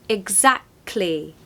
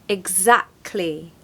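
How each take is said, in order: No difference in how they are said.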